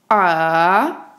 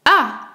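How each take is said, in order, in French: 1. Le ton descend bas, puis remonte. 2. Le ton chute brusquement de l'aigu vers le grave. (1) "un ton descendant puis montant" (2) "Il commence par l'aigu et descend très grave"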